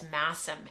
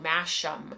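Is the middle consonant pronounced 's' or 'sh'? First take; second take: s; sh. First: The middle consonant is pronounced 's'. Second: The middle consonant is pronounced 'sh'. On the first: The speaker calls it right. "it's Massam, M A S S A M. That's how you say it" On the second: The speaker calls it wrong. "I think I pronounced it on the show Masham"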